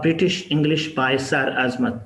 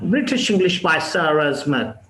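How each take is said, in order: First: It is spoken in a Pakistani English accent. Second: It is spoken in a British English accent. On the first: "ये मैंने पाकिस्तानी लहजे में कहा" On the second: "अगर हम British लहजे में ऐसा कहें"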